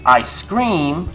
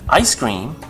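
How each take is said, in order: First: The stress falls on the second word. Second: The stress falls on the first word. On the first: It means the speaker is screaming. "the stress comes in the word scream" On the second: It names the frozen dessert. "you put the stress on the I when you talk about ice cream"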